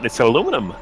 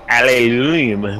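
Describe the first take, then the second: First: The word ends with a short '-num' syllable. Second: The word ends with an extra '-ium' syllable. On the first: This is the speaker's own way of saying it. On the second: This is how the other group says it. "whatever you guys call it"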